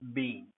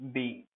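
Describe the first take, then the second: First: The word is said in its long, stressed form. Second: The word is said in its long, stressed form.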